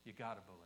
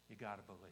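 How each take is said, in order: Both takes have the same delivery.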